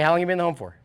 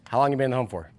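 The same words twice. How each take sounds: First: It sounds warm, light and friendly. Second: It sounds flat, cold and a bit creepy. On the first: The asker wants to get to know the person better. The speaker calls it right. "it's like a nice, like, yeah, I'd love to get to know you a little better" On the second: The asker seems suspicious or intrusive. The speaker calls it wrong. "That's like a weird, creepy question"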